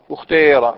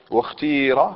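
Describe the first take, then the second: First: واختير louder, its ee shaded toward oo; ishmam. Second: Wukhtīra with a long clear ee; pure kasra. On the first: Teacher showing students the third dialect form, loud ishmam. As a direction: blend damma into the long kasra of واختير. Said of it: "الإشمام". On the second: Teacher showing students the second dialect form, pure kasra. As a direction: give واختير a pure, stretched ee vowel. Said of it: "إخلاص الكسر". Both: Shown as a demonstration.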